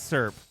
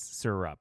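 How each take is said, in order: First: The word is said as one syllable. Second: The word is said as two syllables. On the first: This is how the speaker personally says it. "My family makes fun of the way I say the word syrup" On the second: This is how the speaker's family says it. "It's two syllables"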